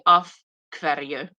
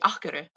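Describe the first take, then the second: First: It is said slowly, with every sound clearly pronounced. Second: It is said fast, with the sounds run together. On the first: "it's literally af hverju" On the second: "when they speak very quickly"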